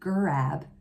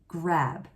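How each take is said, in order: First: An extra er vowel splits it into two syllables. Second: It has one vowel sound and one syllable. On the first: The speaker calls it wrong. "we don't want another vowel sound. We don't want to say grab" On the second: The speaker calls it right. "we want to say grab"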